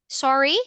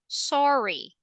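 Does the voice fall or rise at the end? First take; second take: rises; falls. First: The pitch rises at the end. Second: The pitch falls at the end. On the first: The speaker is asking for a repeat. "The intonation is going up" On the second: The speaker is apologizing. "So the intonation is going down"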